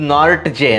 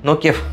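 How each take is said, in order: First: The name is read as spelled, 'Nort-je'. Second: The name is said like 'No-kia'. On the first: The speaker calls it wrong. "Spelling ಪ್ರಕಾರ ಓದಿದ್ದು" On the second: The speaker calls it right. "Pronounce ಮಾಡೋದು"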